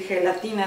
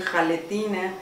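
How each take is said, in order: First: The word starts with a 'he' sound. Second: The word starts with a 'ha' sound. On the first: The speaker calls it right. "en vez de decir gelatina" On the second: The speaker calls it wrong. "dicen jaletina"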